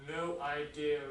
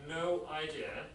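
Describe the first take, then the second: Both takes have the same delivery.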